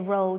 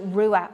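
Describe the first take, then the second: First: The word is one syllable, rhyming with 'cow'. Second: The word has two syllables, ending in an 'a'. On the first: This form is used to make the song rhyme. "we say row just for internal rhyming" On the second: This is the standard word for red. "it's actually Rua, R U A for red"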